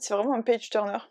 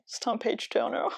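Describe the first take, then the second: First: Said in the usual way. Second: Page-turner said the American way, softer; little American accent. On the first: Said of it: "petit accent américain". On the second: Shown as a demonstration. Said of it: "Attention, petit accent américain". (petit accent américain sur page-turner)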